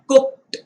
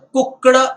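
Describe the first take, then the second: First: The ending is pronounced with a t sound. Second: The ending is pronounced with a d sound. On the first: The speaker calls it right. "इसका उच्चारण ट से करना है" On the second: The speaker calls it wrong. "ना कि ड लगाकर"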